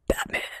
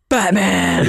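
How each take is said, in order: First: The word is whispered. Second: The word is said aloud.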